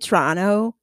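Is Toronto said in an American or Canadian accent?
Canadian. Toronto is said with a Canadian accent. "they're from Toronto"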